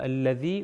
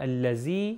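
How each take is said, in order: First: The middle consonant is a voiced th sound. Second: The middle consonant is a buzzing z sound. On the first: The speaker calls it right. "تو تلفظ کیا ہوگا؟" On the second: The speaker calls it wrong. "اگر کہیں یہ الذي یا الذين تو یہ تلفظ ہی غلط ہے"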